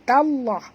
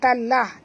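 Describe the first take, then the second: First: The lam sound is heavy and thick. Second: The lam sound is light and thin. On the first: The speaker calls it right. "tallah tebal ya" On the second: The speaker calls it wrong. "jangan baca tallah"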